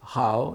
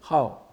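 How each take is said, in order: First: The syllable dips low, then rises slightly. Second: The syllable falls sharply from high to low. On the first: It is the adjective meaning good. "c'est au troisième ton" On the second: It is the verb meaning to like. "quatrième ton"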